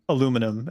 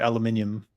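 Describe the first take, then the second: First: It is said in the American way. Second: It is said in the British way. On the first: "I say aluminum" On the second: "which drives U K people crazy"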